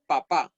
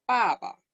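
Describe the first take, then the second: First: Said in the usual way. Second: "Papa" stressed first, falling from high; fourth tone. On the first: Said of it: "como se dice en español". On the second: Shown as a demonstration. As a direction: start the first syllable of "Papa" high and drop it. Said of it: "se dice en cuarto tono la primera sílaba".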